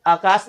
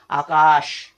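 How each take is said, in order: First: आकाश said with a dental s, like akas; wrong demo: आकाश with plain s; mispronounced आकाश as akas; wrong reading. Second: आकाश with a clear palatal sh, aakaash; right way: आकाश ending in sh; correct reading. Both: Shown as a demonstration. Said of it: "तो आकाश नहीं पढ़ेंगे".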